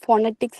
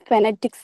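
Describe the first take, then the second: First: The first vowel sounds like a long 'oh'. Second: The first vowel sounds like a short 'uh'. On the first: The speaker calls it wrong. "ഇത് ഫോണറ്റിക്സ് എന്നല്ല" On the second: The speaker calls it right. "British ആക്സെന്റിലും American ആക്സെന്റിലും ഇതിനെ pronounce ചെയ്യണത് ഫെനറ്റിക്സ് എന്നാണ്"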